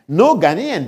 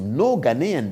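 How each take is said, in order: First: Louder, punched "no Ghanaian"; emphatic repeat. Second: Said in the usual way. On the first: Shown as a demonstration. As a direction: hit "no" hard on the repeat. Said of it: "No Ghanaian (repeated)". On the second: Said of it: "no Ghanaian (repeated)".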